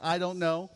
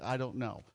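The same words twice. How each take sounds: First: "I don't know" said like a question, last part up; questioning response. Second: Said in the usual way. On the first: Shown as a demonstration. Preacher coaching the congregation's response, "I don't know" as a question. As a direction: lift the end of "know" as if asking. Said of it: "say it like a question". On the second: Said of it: "last part's gotta go up".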